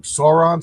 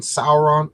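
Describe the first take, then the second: First: Sauron, first syllable rhyming with "door"; Sauron as SORE-on. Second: Sauron, first syllable rhyming with "hour"; Sauron as SOUR-on. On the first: Streamer asks viewers how Sauron is pronounced, SORE-on option. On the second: Streamer offers the other pronunciation of Sauron, SOUR-on. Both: Shown as a demonstration. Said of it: "How do you pronounce Sauron's name?".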